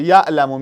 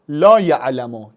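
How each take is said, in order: First: Said in the usual way. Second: «لا یعلم» with لا leaned on, said slowly; stress on لا. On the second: Shown as a demonstration. Teacher showing the negative to students, slowly stressing لا. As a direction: drag out لا before یعلم.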